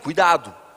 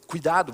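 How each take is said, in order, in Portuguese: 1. É dito em voz alta e com severidade. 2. É dito com suavidade e carinho. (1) "Já aumentei a voz" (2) "mais carinhoso"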